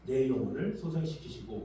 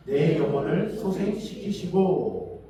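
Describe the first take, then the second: First: Said in the usual way. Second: Loud, very drawn-out verse reading; scripture recitation. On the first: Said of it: "뭐예요". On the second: Real, not acted. Preacher leading congregation in psalm, loud slow recitation. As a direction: recite it slowly and loudly for all to follow. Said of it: "같이 한번 읽겠습니다".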